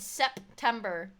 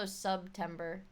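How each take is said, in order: First: September with a clear SEP at the front; standard pronunciation. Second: Subtember with SUB in place of Sep; punning pronunciation. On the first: Streamer correcting what was said, September pronounced with SEP. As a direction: say September with "eh" in the first syllable. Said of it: "I said September". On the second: Streamer punning on subs, Subtember pronounced with SUB. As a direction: say Subtember with "uh" in the first syllable. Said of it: "but it's also Subtember". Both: Shown as a demonstration.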